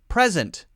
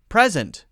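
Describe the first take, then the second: First: The stress is on the first syllable. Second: The same.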